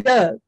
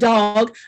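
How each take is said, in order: First: The word has a Baltimore-style vowel. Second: The word has a general American vowel.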